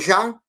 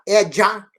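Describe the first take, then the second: First: The j is a soft zh sound. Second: The j is a dj sound. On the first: The speaker calls it wrong. "eu não estou dizendo já" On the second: The speaker calls it right. "Eu estou dizendo é já"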